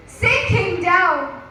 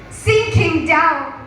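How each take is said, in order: Both takes have the same delivery.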